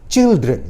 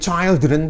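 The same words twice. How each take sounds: First: The first vowel sounds like 'it'. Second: The first vowel sounds like 'eye'. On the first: The speaker calls it right. "tapi children" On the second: The speaker calls it wrong. "nggak boleh"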